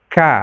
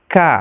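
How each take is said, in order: First: The k is light, with a flat tongue. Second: The k is light, with a flat tongue.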